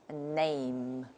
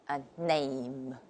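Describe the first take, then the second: Both takes have the same delivery.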